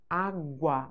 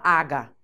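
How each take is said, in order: First: A w sound is heard after the g. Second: No w sound is heard after the g. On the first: The speaker calls it right. "Você ouve o som do U" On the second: The speaker calls it wrong. "Você não fala aga"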